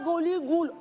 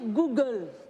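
First: The word is stretched with extra vowels inserted. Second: The word is said plainly without extra vowels. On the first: The speaker calls it wrong. "On ne dit pas Gouligoul" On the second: The speaker calls it right. "on dit Google"

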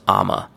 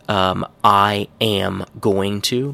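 First: The phrase is squeezed into one short reduced word. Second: Every word is pronounced fully and separately. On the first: "I'm gonna becomes I'ma" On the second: "becomes a little bit more relaxed"

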